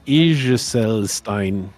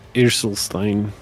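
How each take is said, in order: First: It is said with a French accent. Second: It is said with an English accent. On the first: "you basically don't have French accent, but when you try this" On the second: "if you would try it in English pronunciation"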